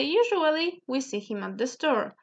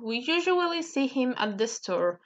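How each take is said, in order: First: "Usually" stressed and higher; emphasis up front. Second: Said in the usual way. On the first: Shown as a demonstration. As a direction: lead with a lifted "Usually". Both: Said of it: "to emphasize".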